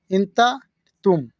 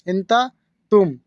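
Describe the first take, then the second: No difference in how they are said.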